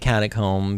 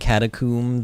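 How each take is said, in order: First: It uses the American pronunciation of the word. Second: It uses a non-American pronunciation of the word. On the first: "that's how Americans say it" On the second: "If it's supposed to be catacomb"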